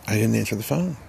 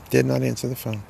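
First: Said in the usual way. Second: "Did not" split apart and pressed hard; stress on did not. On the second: Shown as a demonstration. Repeating it to herself so the listener knows she refused. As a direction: lean on "Did not answer the phone" as two firm words.

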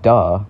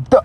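First: DUH drawn out with a sliding tune; obvious duh. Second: Sharp, high, cut-short duh; interjection like wow. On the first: Vlogger showing the word not meant, drawn-out obvious duh. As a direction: stretch DUH as if stating the obvious. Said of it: "Like, obviously". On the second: Vlogger showing viewers a new word, sharp interjection. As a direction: pop out DUH as one abrupt burst. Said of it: "It's kinda like saying, "Wow". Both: Shown as a demonstration.

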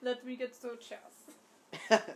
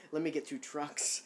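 First: Slow, loud mock German accent; exaggerated, slow German accent. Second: Playful mock German accent; joking German accent between laughs. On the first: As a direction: draw it out in a hammed-up German accent. Accent game, takes a turn. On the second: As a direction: echo it in a badly faked German accent. Parodies the line back, laughing.

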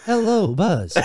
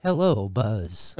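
First: Shouted cat voice. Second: Low, slow "Hello, Buzz"; deep drawn-out cartoon cat. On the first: Acted. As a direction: belt out the cat greeting. Repeating the voice louder. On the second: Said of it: "That wasn't bad".

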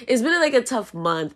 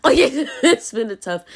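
First: Said in the usual way. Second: Slower, higher, laughing through it. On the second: Real, not acted. Telling viewers about a rough broke month, laughing. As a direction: laugh it off while admitting it. Laughing at own money troubles.

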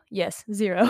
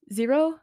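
First: Settled, falling answer; confirming. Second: Doubting her own name, rising; unsure question. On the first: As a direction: state it firmly after the doubt. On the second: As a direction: ask it back, puzzled. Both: Real, not acted. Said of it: "I don't know my own name".

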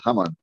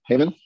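First: Haman said as Hebrew ha-MAN with open a; the Hebrew way, Haman as hah-mahn; Hebrew pronunciation. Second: Haman said as English HAY-mun; English pronunciation. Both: Shown as a demonstration. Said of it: "But in Hebrew, it's Haman".

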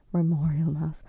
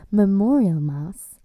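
First: Said in the usual way. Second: Memorial mass. slowed and louder, each word weighted; slow emphatic repeat. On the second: Shown as a demonstration. Vlogger repeating the phrase for emphasis, slowed and louder.

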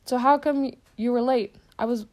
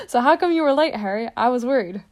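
First: A touch higher and louder, a big friendly half-giant; hearty but held back; first try at the giant's question; Hagrid's voice. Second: Louder, higher booming half-giant; big worried giant calling across the hall; full booming take of the giant's question; Hagrid's voice. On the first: Hagrid asks Harry. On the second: Hagrid retakes the line. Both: Acted.

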